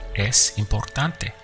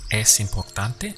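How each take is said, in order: First: It is said with statement intonation. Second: It is said with question intonation. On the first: It states that something is important. "How would you say it's important?" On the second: It asks whether something is important. "Now ask, is it important?"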